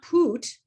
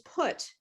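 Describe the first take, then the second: First: The vowel is a long oo sound. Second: The vowel is a short oo sound. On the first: The speaker calls it wrong. "it's not poot" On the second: The speaker calls it right. "It's put. It's different"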